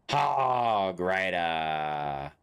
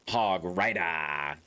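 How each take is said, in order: First: The word rider is drawn out long. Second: The word rider is said short. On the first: "Let the end syllable drag on a bit longer" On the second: "Is that better?"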